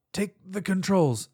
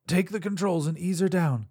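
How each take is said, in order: First: Coughing out the words; strained, slow, through a cough. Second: Firm order repeated; commanding. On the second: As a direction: press the order home. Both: Acted. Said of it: "she coughed violently".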